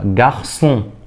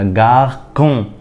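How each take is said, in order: First: The middle consonant is an s sound. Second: The middle consonant is a k sound. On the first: The speaker calls it right. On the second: The speaker calls it wrong.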